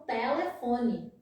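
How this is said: It is said in a northeastern Brazilian accent. "Lá no Nordeste, eles falam"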